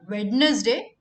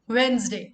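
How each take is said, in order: First: The middle D sound is clearly pronounced. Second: The middle D sound is left silent. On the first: The speaker calls it wrong. "It's not Wednesday" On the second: The speaker calls it right. "The D is silent here"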